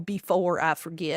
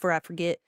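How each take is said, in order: First: The word 'before' is said in full. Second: The first syllable of 'before' is dropped. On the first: "I don't really say the whole before I forget" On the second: "I just let me do this for I forget"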